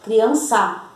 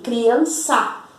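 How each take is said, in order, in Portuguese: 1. A sílaba tônica é a última. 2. A sílaba tônica é a última.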